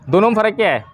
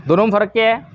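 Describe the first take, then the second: No difference in how they are said.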